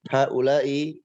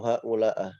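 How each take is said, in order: First: The word ends in an i vowel. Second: The word ends in an a vowel. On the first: The speaker calls it right. "haula'i itu dibaca kasrah" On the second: The speaker calls it wrong. "atau haula'ah"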